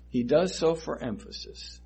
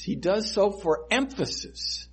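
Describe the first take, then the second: First: Said in the usual way. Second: First take lifted higher, stress on so; emphatic first take. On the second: Shown as a demonstration. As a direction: say it up high and hit so. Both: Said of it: "when Jesus Christ repeats things".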